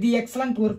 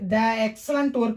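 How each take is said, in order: First: 'The' is said with a 'thee' sound. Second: 'The' is said with a short 'thuh' sound. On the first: The speaker calls it right. "தி excellent work அப்படின்னு தான் சொல்ல முடியும்" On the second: The speaker calls it wrong. "இங்கே வந்து த excellent work அப்படின்னு சொல்ல முடியாது"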